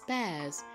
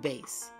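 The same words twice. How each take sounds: First: The vowel is short, as in 'class'. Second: The vowel is long, as in 'base'. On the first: It means a kind of fish. "When it's bass, it's referring to a fish" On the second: It means a musical instrument. "we're talking about the musical instrument, the bass"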